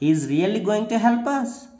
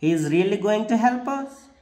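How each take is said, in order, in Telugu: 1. ఇది సందేహాన్ని సూచించే పడి-లేచే స్వరంతో చెప్పబడుతుంది. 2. ఇది సందేహాన్ని సూచించే పడి-లేచే స్వరంతో చెప్పబడుతుంది.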